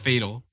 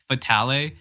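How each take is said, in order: First: The word ends plainly on the L sound. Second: The word ends with an added vowel sound. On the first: The speaker calls it right. "There is no E. It's just Fatal" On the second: The speaker calls it wrong. "so many people pronounce it Fatale"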